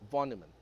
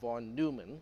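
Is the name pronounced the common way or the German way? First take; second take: German; common. First: The name is pronounced the German way. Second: The name is pronounced the common way. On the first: The speaker calls it right. "that is supposed to be pronounced as von Neumann" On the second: The speaker calls it wrong. "which is what most people pronounce it as"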